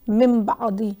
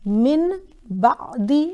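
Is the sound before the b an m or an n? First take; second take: m; n. First: An m sound is said before the b. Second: An n sound is said before the b. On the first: The speaker calls it right. "बल्कि मिम बादी" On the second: The speaker calls it wrong. "नहीं पढ़ना"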